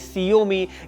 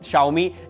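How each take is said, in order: First: The name begins with an s sound. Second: The name begins with a sh sound. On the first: The speaker calls it wrong. "सियोमी या फिर बस MI बोलते थे" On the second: The speaker calls it right. "इसका असली pronunciation"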